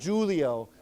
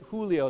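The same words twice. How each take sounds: First: The name starts with a J sound. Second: The name starts with an H sound. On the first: The speaker calls it wrong. "Not Julio" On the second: The speaker calls it right. "So it's like an H"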